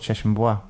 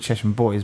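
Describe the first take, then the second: First: Bois is said the French way, like bwa. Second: Bois sounds like the English word boys. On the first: This is the original name, meaning wood. "but it, it was Cheshire Bois" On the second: This is how people say it now. "over time, people call it Cheshire Boys"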